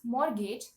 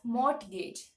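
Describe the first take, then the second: First: The T sound is left out entirely. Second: The T sound is pronounced in the middle. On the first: The speaker calls it right. "The T in that word is silent" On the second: The speaker calls it wrong. "people tend to pronounce the T"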